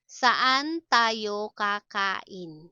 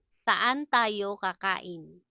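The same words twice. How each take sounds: First: Drawn-out, separated syllables; slow teaching model. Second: Said in the usual way. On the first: Shown as a demonstration. Teacher models a question about eating out, slowly. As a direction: sound each word out carefully.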